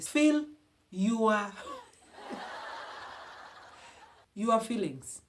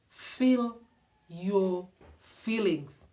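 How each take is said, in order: First: It is said in a Ugandan accent. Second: It is said in the speaker's usual accent.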